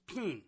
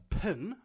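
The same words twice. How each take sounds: First: "pin" with a tighter Australian i, near "peen"; Australian pronunciation. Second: "pin" with a short, centralised New Zealand i; New Zealand pronunciation. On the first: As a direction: mimic an Australian saying "pin". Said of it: "For an Australian, it's the same word". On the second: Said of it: "a New Zealander will talk about". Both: Shown as a demonstration.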